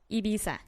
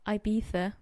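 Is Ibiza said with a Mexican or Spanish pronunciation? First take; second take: Mexican; Spanish. First: It is said with a Mexican Spanish pronunciation. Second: It is said with a Spain Spanish pronunciation. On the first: "But me as Mexican, I pronounce it Ibiza" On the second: "that's how Spanish people pronounce it"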